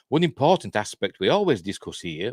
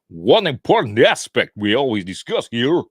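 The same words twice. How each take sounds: First: It is read in the speaker's ordinary voice. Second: It imitates Valiant Renegade's deep American radio voice.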